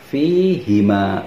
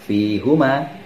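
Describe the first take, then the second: First: The vowel after the h is i. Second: The vowel after the h is u. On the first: The speaker calls it right. "maka akan dibaca fihima" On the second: The speaker calls it wrong. "bukan fihuma"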